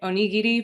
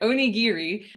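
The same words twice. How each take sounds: First: The word is said with Japanese pronunciation. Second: The word is said with American English pronunciation. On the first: "The Japanese pronunciation is more like" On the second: "we're going to say it like an American"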